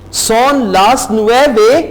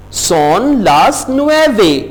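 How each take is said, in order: First: Son las nueve with a rising question tune on nueve. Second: Said in the usual way. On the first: Shown as a demonstration. Teacher turns the time phrase into a question with a rise. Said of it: "क्या नौ बज गए हैं?". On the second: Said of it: "plain statement take".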